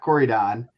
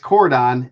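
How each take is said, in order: First: The middle syllable is kept. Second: The middle syllable is dropped. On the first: The speaker calls it wrong. "not Corridon" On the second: The speaker calls it right. "It's Cordon"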